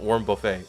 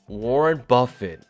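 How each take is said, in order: First: The surname is said in a deliberately altered way. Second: The surname is said in its usual standard way. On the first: The speaker calls it wrong. "I've been pronouncing it wrong on purpose" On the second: The speaker calls it right. "but Warren Buffett"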